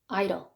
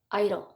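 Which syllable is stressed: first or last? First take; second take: first; first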